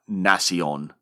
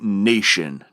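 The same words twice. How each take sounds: First: The ending is said as two syllables. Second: The ending is said as one syllable. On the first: This is the older Middle English pronunciation. "not nation" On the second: This is the modern pronunciation. "We say nation"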